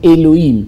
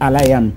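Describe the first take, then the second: First: It is pronounced with e-lo-heem sounds. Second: It is pronounced with a-la-yam sounds. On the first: The speaker calls it wrong. "que vous appelez faussement, euh, à une mauvaise prononciation" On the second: The speaker calls it right.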